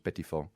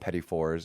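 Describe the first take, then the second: First: It is said with a French accent. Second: It is said with an English accent. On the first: "If you do in a French Engl- uh, French accent, it's petit four" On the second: "In English, we call them petit fours"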